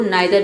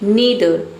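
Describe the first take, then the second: First: The first vowel sounds like 'eye'. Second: The first vowel sounds like 'ee'. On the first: "नाइदर भी पढ़ते हैं"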